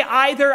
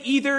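First: "either" opening on a long I sound; EYE-ther pronunciation. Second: "either" opening on a long E sound; first vowel of "either" rhymes with "see"; EE-ther pronunciation. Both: Shown as a demonstration. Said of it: "different ways in which some of us pronounce words".

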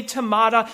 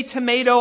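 First: "tomato" with an open "ah" in the middle; to-MAH-to pronunciation. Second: "tomato" with a long A in the middle; to-MAY-to pronunciation. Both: Shown as a demonstration. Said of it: "different ways in which some of us pronounce words".

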